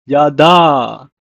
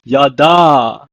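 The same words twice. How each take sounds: First: Yada repeated loud, ya-da; Hebrew pronunciation. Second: Yada said loud, ya-da; Hebrew pronunciation. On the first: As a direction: model Yada again. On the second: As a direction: model Yada clearly. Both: Shown as a demonstration. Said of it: "pronounced as".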